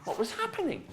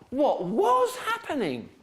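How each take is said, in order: First: The stress falls on the last word. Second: The stress falls on the middle word. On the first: "You're putting stress on happening" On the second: "Now the stress is on was"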